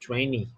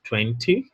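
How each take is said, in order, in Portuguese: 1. É dito com sotaque americano. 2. É dito com sotaque britânico. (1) "enquanto que o americano fala vinte" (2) "no inglês britânico eles falam o número vinte"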